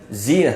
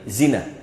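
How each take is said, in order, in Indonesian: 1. Vokal pertama dibaca panjang. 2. Vokal pertama tetap dibaca pendek. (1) "jangan dibaca zina" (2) "tapi zina, pendek ya"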